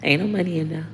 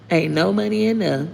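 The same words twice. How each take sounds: First: Said in the usual way. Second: Higher, put-on sassy voice; hammed-up taunt at would-be hackers; sassy repeat. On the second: Mocks viewers prying for bank details, higher sassy taunt. Repeats joke about empty account.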